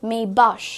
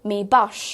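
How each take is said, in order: The two takes are said the same way.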